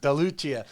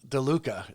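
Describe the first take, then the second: First: The name ends with a 'chia' sound. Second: The name ends with a 'ka' sound. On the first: The speaker calls it right. "I got to get the right pronunciation there" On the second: The speaker calls it wrong. "You don't pronounce it, DeLuca"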